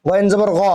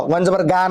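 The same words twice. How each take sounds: First: গ as a throaty Arabic gh with a rounded vowel; গইন জবর গ with Arabic ghain; correct Arabic ghain. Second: গা as a plain hard g with open "aa"; wrong Bengali-style ghain. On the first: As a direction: say গ from the throat, like "gho". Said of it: "আমরা উচ্চারণ ঠিক করব". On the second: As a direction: say গা as in Bengali, not throaty. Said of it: "বাংলাতে উচ্চারণ করতে গেলে গইন জবর গা হবে". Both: Shown as a demonstration.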